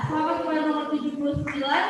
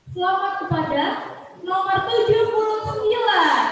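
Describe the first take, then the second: First: Quick, laughing congratulations; laughing repeat. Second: Booming prize announcer. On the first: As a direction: rattle it off again with a laugh. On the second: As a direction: boom out the winning number. MC announces the winner. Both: Real, not acted.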